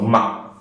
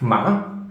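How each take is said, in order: First: The syllable ends in an abrupt stop. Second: The pitch breaks, then rises. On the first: "this one is short, abrupt stop" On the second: "it has a crack and goes up"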